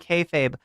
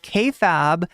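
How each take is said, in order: First: The last syllable sounds like 'fabe'. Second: The last syllable sounds like 'fab'. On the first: The speaker calls it right. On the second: The speaker calls it wrong.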